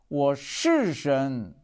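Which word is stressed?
是. The stress falls on the word 是. It is truly so and should not be doubted. "我真的是神，不要怀疑"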